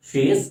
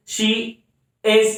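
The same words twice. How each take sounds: First: Said in the usual way. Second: "she", a pause, then "is"; each of "she" and "is" sounded alone; word-by-word syllable demo. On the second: Shown as a demonstration. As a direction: separate "she" and "is" into single beats. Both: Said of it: "एक ही sound आता है".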